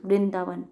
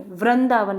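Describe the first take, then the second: First: वृंदावन said as vrindavan with a clear ri; correct pronunciation. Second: वृंदावन with the r and vowel swapped, a wrong ru sound; wrong pronunciation. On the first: Teacher gives the right form after the mistake, correct pronunciation. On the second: Teacher demonstrates the common r mistake to the class, wrong pronunciation. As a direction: say वृंदावन the mistaken way, slightly louder. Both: Shown as a demonstration. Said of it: "वही र और र की mistake".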